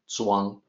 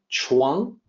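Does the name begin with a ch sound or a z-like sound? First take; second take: z-like sound; ch sound. First: The name begins with a z-like sound. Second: The name begins with a ch sound. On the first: The speaker calls it right. "sound it out more correctly" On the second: The speaker calls it wrong. "people pronounce it like Chuang with a C H sound"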